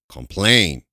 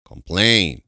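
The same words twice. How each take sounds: The two takes are said the same way.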